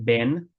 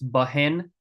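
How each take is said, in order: First: The word is said without an H sound. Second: The word is said with an H sound. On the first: "It's pronounced Ben, like that" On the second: "Ben has an H. It's Bahen"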